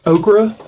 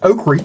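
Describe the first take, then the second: First: It is said in a standard accent. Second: It is said in a Southern accent.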